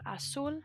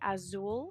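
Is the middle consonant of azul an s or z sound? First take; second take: s; z. First: The middle consonant is a hissing s sound. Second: The middle consonant is a buzzing z sound. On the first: The speaker calls it right. "The Z is pronounced like an S" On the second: The speaker calls it wrong. "a lot of Spanish speakers in the early phases try to say azul"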